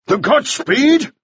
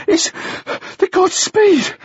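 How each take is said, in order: First: Slow, high, incredulous bark; barked question. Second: Put-on high, winded boy; barely managing words. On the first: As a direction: bark it back as a shocked demand. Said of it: "Mannering barked". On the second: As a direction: squeeze it out between gasps. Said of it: "the boy managed". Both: A narrator's reading.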